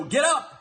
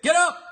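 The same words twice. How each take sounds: First: Said in the usual way. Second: High, loud mock-announcer shout of the show name; hyped title shout. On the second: Mocking how ESPN brands its show, loud hyped shout. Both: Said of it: "That's how they say it".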